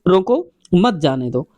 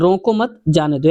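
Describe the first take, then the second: First: There is a pause after the word 'roko'. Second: There is a pause after the word 'mat'. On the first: Stop him; do not let him go. "यहाँ पर रोको के बाद लगा दें" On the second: Do not stop him; let him go. "कहते हैं रोको मत, तो यहाँ पर लगा दो कॉमा"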